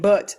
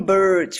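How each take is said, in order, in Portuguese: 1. É pronunciado com sotaque britânico, sem o R. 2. É pronunciado com sotaque americano, com o R pronunciado. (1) "com sotaque britânico ... não tem o R" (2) "tem que falar bem Burt"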